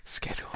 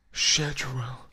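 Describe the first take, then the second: First: "Schedule" begun with a hard SK; own schedule pronunciation. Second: "Schedule" begun with a SH sound; British-style schedule. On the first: Streamer showing how they say schedule, "Schedule" with SK. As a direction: say "Schedule" as SKED-ool. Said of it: "I say schedule". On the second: Streamer showing another way to say schedule, "Schedule" with SH. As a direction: say "Schedule" as SHED-jool, drawn out and louder. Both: Shown as a demonstration.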